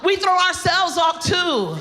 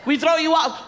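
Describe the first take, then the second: First: Shouted punchline. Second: Said in the usual way. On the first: Shown as a demonstration. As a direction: belt the punchline out.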